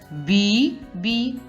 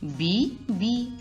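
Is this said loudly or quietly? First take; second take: loudly; quietly. First: It is said loudly and strongly. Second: It is said quietly and softly. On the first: "А тепер голосно" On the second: "Зараз тихенько скажемо з вами"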